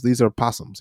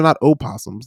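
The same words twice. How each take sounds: First: "possums" said as PAH-sums, no leading vowel; possum without the o. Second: "opossums" said with a clear leading o-sound, o-PAH-sums. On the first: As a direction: drop the o, just "possums". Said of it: "and these are not opossums". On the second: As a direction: stress the o in "opossums" as the wrong name. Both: Shown as a demonstration.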